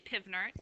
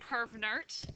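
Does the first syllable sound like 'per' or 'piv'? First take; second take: piv; per. First: The first syllable sounds like 'piv'. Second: The first syllable sounds like 'per'. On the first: "Some people say pivnert" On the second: "I say pervnert"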